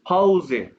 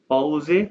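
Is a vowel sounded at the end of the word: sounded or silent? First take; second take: sounded; sounded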